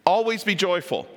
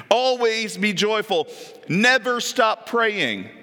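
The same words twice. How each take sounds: First: Said in the usual way. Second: Slow, drawn-out reading; slow, emphatic scripture read; slow command. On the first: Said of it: "That's kind of a command". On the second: Shown as a demonstration. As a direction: give each word weight. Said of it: "Is that a command?".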